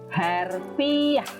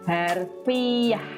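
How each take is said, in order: Both takes have the same delivery.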